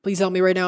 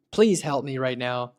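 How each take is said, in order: First: Higher, louder, frantic plea; panicked caller. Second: Lightly acted plea for help, near his own voice; a touch of worry, asking for help; mild pleading caller. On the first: Pretend. Rerunning the test as a frantic caller, higher and louder. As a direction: beg for help as if the market is crashing. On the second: Testing the bot as a mildly anxious caller. Acting as worried caller to agent.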